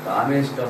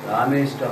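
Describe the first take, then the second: Both takes have the same delivery.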